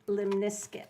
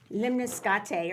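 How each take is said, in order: First: The last syllable rhymes with 'biscuit'. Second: The last syllable sounds like 'kate'. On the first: This is the American way of saying it. The speaker calls it right. "It really is pronounced limnisket, like a biscuit in, the, in America" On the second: This is how people elsewhere say it. The speaker calls it wrong. "How do they say it? Limniscate or something like that"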